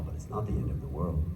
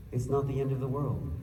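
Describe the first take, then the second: First: Said in the usual way. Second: "not" lifted higher and leaned on; stress on not. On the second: Shown as a demonstration. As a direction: press the word "not" so it sinks in.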